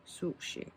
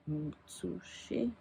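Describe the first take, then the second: First: "Sushi" breathed as a whisper, the end of "Utsushi" split off; whispered pronunciation part. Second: "Utsushi" said slowly and softly, syllable by syllable as ut-su-shi; careful Japanese pronunciation. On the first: Pulling the pen's name apart for viewers, whispering "Sushi". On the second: Showing viewers how to say the pen's name, slow soft pronunciation of "Utsushi". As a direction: sound out "Utsushi" slowly and quietly, leaning on the first syllable. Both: Shown as a demonstration. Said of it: "It's like ut with sushi".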